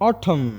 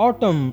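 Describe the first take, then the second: Both takes have the same delivery.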